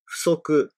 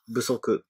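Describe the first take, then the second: First: The word does not begin with a b sound. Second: The word begins with a b sound. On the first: The word stands alone. "si on dit seulement euh, ce mot, euh, on le prononce soku" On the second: The word follows another word in a compound. "dans le cas de la combinaison d'un mot et soku, on prononce busoku"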